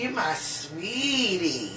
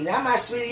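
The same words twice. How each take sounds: First: "you" pressed in "you my sweetie", slow and soft; slow down and lean on "you" in "you my sweetie"; stress on you. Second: My pressed lightly in "Not my sweetie"; stress on my. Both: Shown as a demonstration.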